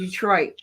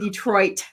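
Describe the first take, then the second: First: The final T is cut off in the throat. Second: The final T is fully released. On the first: "We say Detroit. And you stop in the back of your throat" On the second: "We don't say Detroit"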